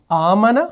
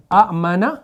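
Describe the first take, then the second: First: आमना with the opening आ held long; long a demo. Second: आमना said as amana, with a short first vowel; original short form. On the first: Teacher showing the Quran's spelling, long vowel. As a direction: draw out the आ of आमना. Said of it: "पहली मिसाल दी". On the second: Teacher showing the original word before the long vowel. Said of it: "असल में ये था". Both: Shown as a demonstration.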